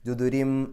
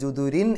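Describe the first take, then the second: First: The word ends with an m sound. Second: The word ends with an n sound. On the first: The speaker calls it right. "ഒരു മീമിലേക്ക് അവിടെ ശബ്ദം കൊണ്ടുപോവുക" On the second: The speaker calls it wrong. "ജുദുരിൻ എന്നല്ല പറയാ"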